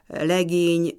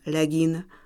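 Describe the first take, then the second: First: The second syllable has a long e vowel. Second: The second syllable has a short i vowel. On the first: This is the standard form. The speaker calls it wrong. "tehát nem legény" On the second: This is the form of this dialect. The speaker calls it right. "rövid ível hangzanak ebben a nyelvjárásban"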